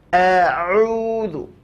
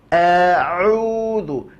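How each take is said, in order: No difference in how they are said.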